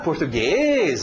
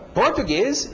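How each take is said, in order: First: The stress is on the last syllable. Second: The stress is on the first syllable. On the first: The word is understood. The speaker calls it right. "agora eu entendi a palavra" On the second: The word is not understood. The speaker calls it wrong. "Se eu mudasse esse ritmo para o início ... eu não entendo essa palavra"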